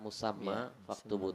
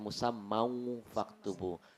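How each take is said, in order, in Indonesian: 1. Musamma diakhiri dengan jelas, tanpa vokal u tambahan. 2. Musamma diakhiri dengan vokal u tambahan. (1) "Kalau ini sudah tepat" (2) "Padahal tidak ada wawunya di sana"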